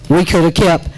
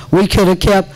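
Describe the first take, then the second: No difference in how they are said.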